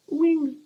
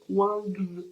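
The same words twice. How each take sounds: First: "Wings" said the English way, an open i as in win; English title said. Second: "Wangs" with a flat open a, like wang, then a hard g and z; jokey overdone English "Wangs"; mock English accent. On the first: Booktuber names the novel, saying "Wings" the English way. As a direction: says "Wings" like the English word. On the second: Correcting herself to viewers, a jokey overdone English "Wangs". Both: Shown as a demonstration. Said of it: "On voit encore mon accent anglais génial".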